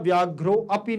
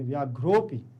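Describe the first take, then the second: First: A separate 'a' sound follows 'vyaghro'. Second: No separate 'a' sound follows 'vyaghro'. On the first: The speaker calls it wrong. "नहीं पढ़ेंगे" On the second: The speaker calls it right. "व्याघ्रोपी पढ़ेंगे"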